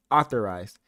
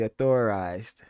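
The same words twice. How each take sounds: First: "authorized" stressed on AU, the first syllable; "authorized" punched loudly on the opening AU. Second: "authorized" stressed on THOR, the middle syllable; "authorized" slowly, leaning on the middle THOR; second-syllable stress. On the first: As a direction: say "authorized" as AU-thor-ized, loud and firm. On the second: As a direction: say "authorized" as au-THOR-ized, drawn out. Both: Shown as a demonstration. Reads both pronunciations of the word.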